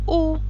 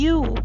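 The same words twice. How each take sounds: First: It begins with a plain vowel sound. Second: It begins with a consonant Y sound. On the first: The speaker calls it wrong. "bukan U" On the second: The speaker calls it right. "kita membacanya U"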